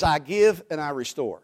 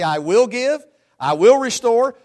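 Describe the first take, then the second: First: Said in the usual way. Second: "will" punched high and loud in "I will give, I will restore"; stress on will. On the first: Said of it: "Present tense". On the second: Shown as a demonstration. Preacher mocking a future-tense vow, stress on will. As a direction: hammer the word "will", future promise. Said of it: "or did it says".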